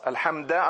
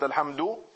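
First: The word ends with an 'a' vowel. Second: The word ends with a 'u' vowel. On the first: The wording of the text has been changed. The speaker calls it wrong. "Alhamda anstatt Alhamdu" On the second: The original wording of the text is kept. The speaker calls it right. "anstatt Alhamdu"

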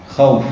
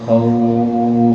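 First: The vowel is not lengthened at all. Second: The vowel is lengthened for six counts. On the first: "الوقف بدون مد مثل الوصل" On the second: "أو ستة"

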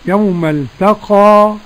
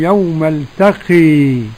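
First: The final vowel is a fully open a. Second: The final vowel is strongly raised toward e. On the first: "ورش بالفتح" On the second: "وحمزة والكسائي وخلف العاشر بالإمالة"

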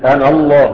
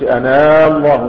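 First: The final vowel of ana is short. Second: The final vowel of ana is lengthened. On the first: The speaker calls it right. "ونحن نقرأ القرآن إنني أنا الله" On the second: The speaker calls it wrong. "ما بنقولش أنا الله، مش كده؟ ما بنمدش مد طبيعي"

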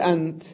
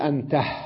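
First: The word ends without a final h sound. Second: The word ends with an added final h sound.

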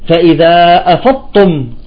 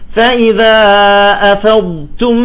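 First: The two consonants merge into one emphatic t-sound. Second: The emphatic d is prolonged, then a soft t. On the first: The speaker calls it wrong. "بيضغم الضاد مع التاء وبيخرج بحرف ثالث هو الطاء" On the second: The speaker calls it right. "نستطيل بالضاد، ونخرج التاء بهمس بسيط"

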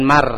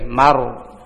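First: The syllable is thin, with a light vowel. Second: The syllable is thick, with a dark vowel. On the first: The speaker calls it wrong. "jangan mar, mar tipis berarti" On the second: The speaker calls it right.

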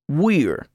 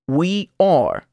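First: The words merge into one short syllable. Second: Both words are said fully and separately. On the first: "luego contraído con el pronombre personal" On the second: "Primero oirá el verbo sin contracción"

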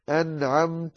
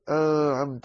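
First: The n sound is pronounced clearly. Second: The n sound is hidden and barely heard. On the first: The speaker calls it right. "أظهر النون" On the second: The speaker calls it wrong. "لا تقول"

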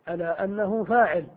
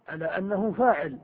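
No difference in how they are said.

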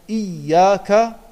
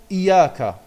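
First: The y sound is held long, doubled. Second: The y sound is short, single. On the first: The speaker calls it right. "ein doppeltes Y, eine Shadda" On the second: The speaker calls it wrong. "nur ein Ja gesprochen mit einer Fatha"

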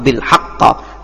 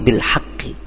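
First: The word ends with an a vowel. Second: The word ends with an i vowel. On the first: The speaker calls it wrong. "atau bil haqqa" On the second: The speaker calls it right. "tetapi bil haqqi"

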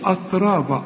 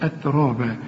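First: The first syllable sounds heavy and emphatic. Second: The first syllable sounds light, not emphatic. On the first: The speaker calls it wrong. "لكن ما تقولش أترابا" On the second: The speaker calls it right. "الراء هي المفخمة"

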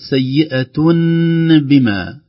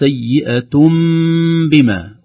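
First: The nasal before the b sounds like n. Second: The nasal before the b sounds like m. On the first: The speaker calls it wrong. "وليست سيئة بما" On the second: The speaker calls it right. "فتصبح الكلمة سيئة بما"

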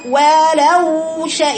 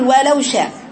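First: The waw sound flows on continuously. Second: The waw sound is cut short, not flowing. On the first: The speaker calls it right. "يبقى في جريان صوت" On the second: The speaker calls it wrong. "من الخطا ان اقول ولو شاء خطا"

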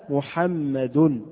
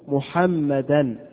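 First: The word ends with a u vowel. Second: The word ends with an an sound. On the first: The word is the subject of the verb. "جاء محمد بالرفع" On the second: The word is the object of the verb. "جاءت منصوبة محمدا"

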